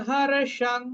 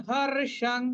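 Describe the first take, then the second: No difference in how they are said.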